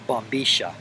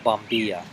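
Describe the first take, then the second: First: The double-L is sounded like 'sh'. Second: The double-L is sounded like a 'y'. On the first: "in Rio Platanese Spanish ... they pronounce it bombisha" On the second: "the straw is called a bombilla"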